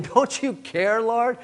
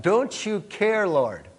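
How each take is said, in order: First: Rising, higher-pitched complaint to the Lord; a hurt, demanding question, pitched up at the end; indignant Martha. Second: Slow thoughtful echo, falling on Lord; slow, pondering repeat. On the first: Acted. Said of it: "Martha, rather indignant". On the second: Shown as a demonstration. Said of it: "Now think about that".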